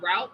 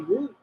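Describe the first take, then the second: First: The word rhymes with out. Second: The word rhymes with boot. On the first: This is the speaker's own usual way. "instead of saying route" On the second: This is how Canadians say it. "they say root"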